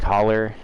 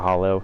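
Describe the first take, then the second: First: The word ends in an 'er' sound. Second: The word ends in an 'oh' sound.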